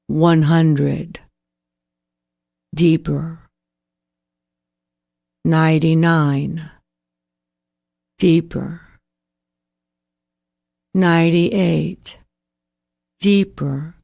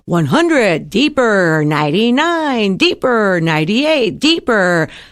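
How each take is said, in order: First: It is said slowly in a low pitch. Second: It is said quickly in a high pitch.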